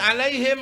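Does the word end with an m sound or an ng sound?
m. The word ends with an m sound.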